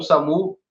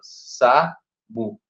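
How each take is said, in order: First: Said in the usual way. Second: "samu" split into two separate syllables, sa, mu. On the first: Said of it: "eu vou separar as sílabas". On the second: Shown as a demonstration. Teacher showing how to count syllables, "samu" broken in two. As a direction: say "samu" with a clear break between syllables. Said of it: "é separado por duas sílabas".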